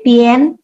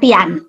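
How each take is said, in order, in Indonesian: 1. Vokal sebelum n terdengar seperti e. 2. Vokal sebelum n terdengar seperti a. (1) "tapi pien ... Itu baca suara e" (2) "Jadi bukan pian"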